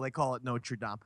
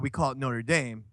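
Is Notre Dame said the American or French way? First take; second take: French; American. First: It is said with a French pronunciation. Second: It is said with an American pronunciation. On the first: This is how the cathedral is named. "With the cathedral, they call it Notre Dame" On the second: This is how the university is named. "in the States, as they say, Roy, we call it Notre Dame"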